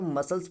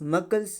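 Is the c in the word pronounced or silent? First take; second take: silent; pronounced. First: The c is silent, no k sound. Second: The c is pronounced as a k sound. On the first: The speaker calls it right. "सी silent है तो मसल्स पढ़ा जाएगा" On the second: The speaker calls it wrong. "मकल्स नहीं"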